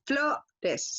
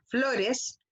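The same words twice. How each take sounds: First: "flores" split in two, FLO held long before "res"; stress on FLO. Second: Said in the usual way. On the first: Shown as a demonstration. Teacher shows pupils the tonic syllable, stressing FLO in "flores". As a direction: lean on the O of "flores", then pause before the ending. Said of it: "se marca en la O". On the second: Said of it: "la palabra".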